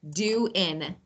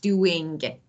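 First: The word ends without a final g sound. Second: The word ends with a full final g sound. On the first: The speaker calls it right. "Or how you doing?" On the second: The speaker calls it wrong. "Not doing"

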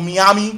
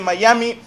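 First: It is said with a Cuban accent. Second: It is said without a Cuban accent.

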